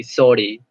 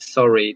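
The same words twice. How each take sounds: First: Scottish "sorry" with a hard, tapped R; Scottish accent. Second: Said in the usual way. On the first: Shown as a demonstration. Tutor showing a student how Scots say sorry, Scottish accent. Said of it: "they pronounce really hard R's". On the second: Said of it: "instead of".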